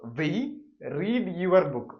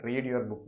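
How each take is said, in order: First: Higher, louder example read; emphatic example. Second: Said in the usual way. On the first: Shown as a demonstration. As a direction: announce the example sentence. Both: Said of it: "അടുത്തൊരു example".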